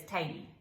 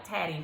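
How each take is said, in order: First: "tatty" with a long a, "tay-ee"; Irish pronunciation. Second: "tatty" with a short a, like "tat-ee"; spelling-based reading. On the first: Repeating her Irish friend's word, with a long a. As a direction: say "tatty" like "tay-tee", t nearly dropped. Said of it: "but she said it's tatty". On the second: Reading the word off the page for viewers, with a short a. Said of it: "It looks like tatty when I look at it". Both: Shown as a demonstration.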